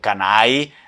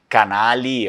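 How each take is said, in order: First: The L sound is dropped from the middle. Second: The L sound is pronounced in the middle.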